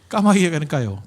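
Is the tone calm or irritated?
irritated. It is said with irritation and annoyance.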